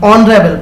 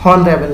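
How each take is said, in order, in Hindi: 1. शब्द स्वर से शुरू होता है, h नहीं है। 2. शब्द की शुरुआत में h की साफ़ आवाज़ आती है। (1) "एच साइलेंट है, ... हम ऑनरेबल पढ़ेंगे" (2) "हॉनरेबल नहीं पढ़ेंगे"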